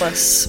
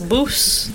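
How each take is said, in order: First: The vowel sounds like the one in fuss. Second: The vowel sounds like the one in loose. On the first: The speaker calls it wrong. "don't say bus, because that's the wrong pronunciation" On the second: The speaker calls it right. "Boos. Not bus"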